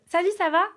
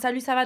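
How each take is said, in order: First: It is said with lively, emotional intonation. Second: It is said flatly, with little emotion. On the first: It is spoken like a voice message, showing real emotion. "T'as l'intonation" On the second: It is read out like a written text message. "de message"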